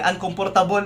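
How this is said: It is said with a Filipino accent. "pag Pinoy"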